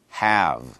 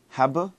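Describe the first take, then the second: First: The word is said as one syllable. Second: The word is said with an extra syllable. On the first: The speaker calls it right. "when I say it alone, it's one syllable" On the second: The speaker calls it wrong. "It's not have"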